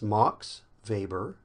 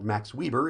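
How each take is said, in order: First: The name is given a German pronunciation. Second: The name is given a Utah-style pronunciation. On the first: This is how it is said in the name's home country. "in Germany, you would say it Max Weber" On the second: This is how someone from Utah would say it. "if you're from Utah"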